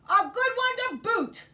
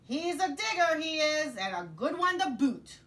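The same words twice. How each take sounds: First: Coro de piratas, muito mais alto e agudo; tripulação concordando aos gritos. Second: Voz aguda e alta de capitão pirata; pirata gritando para a tripulação. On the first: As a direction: grite junto como uma tripulação inteira. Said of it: "they all agreed". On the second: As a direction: grite o elogio para o convés. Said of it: "and then yelled back to his crew". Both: Acted.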